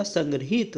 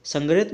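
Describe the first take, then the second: First: संग्रहित as san-gri-heet; correct form. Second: संग्रहित as sang-rit, short middle; quick short vowel ending संग्रहित; wrong form. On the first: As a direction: lengthen the "hee" in संग्रहित. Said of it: "होता है". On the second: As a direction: swallow the "hi" in संग्रहित. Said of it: "नहीं होता". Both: Shown as a demonstration.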